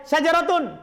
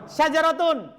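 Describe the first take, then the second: Both takes have the same delivery.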